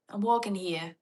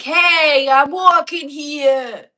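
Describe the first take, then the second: First: Light New York accent at normal volume. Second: Loud, high, drawn-out New York shout; New York accent. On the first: Australian checking an accent with viewers, mild New York accent. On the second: Demonstrating New York for viewers, shouted New York accent. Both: Shown as a demonstration. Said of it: "Isn't that New York?".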